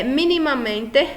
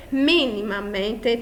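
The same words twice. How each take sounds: First: Said in the usual way. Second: "minimamente" drawn out slowly, syllable by syllable; slow stressed syllables. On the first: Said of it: "nós temos última". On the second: Shown as a demonstration. Teacher counting syllables for students, "minimamente" slowly stressed. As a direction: stretch "minimamente" to show its strong early syllable. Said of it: "antepenúltima sílaba mais forte".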